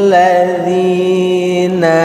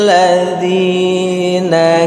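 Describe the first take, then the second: Both takes have the same delivery.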